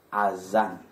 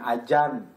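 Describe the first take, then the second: First: The middle consonant is said as a z. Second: The middle consonant is said as a j. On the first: The speaker calls it right. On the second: The speaker calls it wrong. "Bukan ajan"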